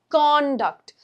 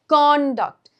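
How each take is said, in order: First: The stress is on the first syllable. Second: The stress is on the first syllable.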